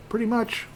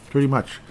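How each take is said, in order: First: Much higher squeaky pretty much; silly high-pitched aside. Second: Said in the usual way. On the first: Pretend.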